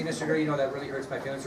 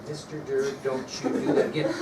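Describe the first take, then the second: First: Softer, gentle pretend complaint; saying it nicely. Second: Pretend reprimand. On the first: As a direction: politely act out mildly hurt feelings. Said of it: "you could tell me nicely". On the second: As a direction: act out a mild warning to the teacher. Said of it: "The R word".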